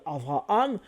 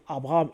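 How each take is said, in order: First: The second consonant is a V sound. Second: The second consonant is a B sound. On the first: This is how modern Hebrew speakers say it. "eux vont dire Avraham" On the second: This is how French speakers say it. "nous on dit Abraham"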